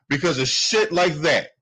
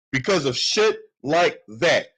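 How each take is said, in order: First: Said in the usual way. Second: Slower, each word set apart; slow, pointed repeat of shit like that; slow emphatic repeat. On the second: Real, not acted. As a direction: drive it home slowly, leaning on shit.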